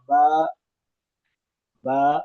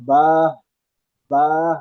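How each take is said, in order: First: با cut off with a glottal jerk; jerked hamza ending. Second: با closed with a breath of H, bah; mistaken H ending. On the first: Teacher showing a common mistake, jerked با. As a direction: end با on an abrupt hamza stop. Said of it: "جھٹکا دیتے ہیں". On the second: Teacher showing a common mistake, با ending in H. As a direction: let با end on an audible h. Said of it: "یا تو ہا کی آواز نکال دیتے ہیں". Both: Shown as a demonstration.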